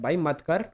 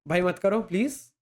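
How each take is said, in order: First: It is said in a harsh, stern tone. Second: It is said in a softer, gentler tone.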